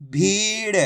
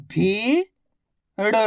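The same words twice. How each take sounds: First: भीड़ joined as one word with long ee; blended word. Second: भीड़ split as भी, long pause, ड़; syllable by syllable. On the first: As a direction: blend भी and ड़ into भीड़ without a gap. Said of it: "तो मिलके बन जाएगा". (भीड़ को मिलाकर बोलें) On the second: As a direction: sound out भीड़ slowly, भी rising, then ड़ alone. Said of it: "एक अक्षर की पहचान करो, उनका उच्चारण करो". (भीड़ को अक्षर-अक्षर अलग बोलें) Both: Shown as a demonstration.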